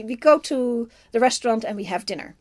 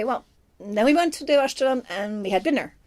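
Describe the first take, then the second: First: Said in the usual way. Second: Natural, lived-in reading of the line; living in the line. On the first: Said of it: "You can say it like that". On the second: Shown as a demonstration. Film fan showing how an actor owns a line, living in it. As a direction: say it as if the words are your own. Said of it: "that's sort of living in the line".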